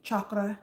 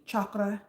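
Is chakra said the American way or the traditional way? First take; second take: traditional; traditional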